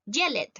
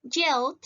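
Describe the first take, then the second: First: "yellet" in two syllables, yell-ed; "yellet" as YEL-let, with an extra syllable; wrong -ed pronunciation. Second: "yelled" in one syllable, yeld; "yelled" as YELD, no extra syllable. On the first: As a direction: sound a full eh in the ending of "yellet". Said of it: "yo no voy a decir". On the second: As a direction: end "yelled" on a D, with the E silent. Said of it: "Yo voy a decir yelled". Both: Shown as a demonstration.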